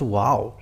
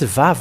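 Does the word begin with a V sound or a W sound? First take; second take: W sound; V sound. First: The word begins with a W sound. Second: The word begins with a V sound. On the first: The speaker calls it wrong. "not wow" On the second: The speaker calls it right. "it's it's Vav, not wow"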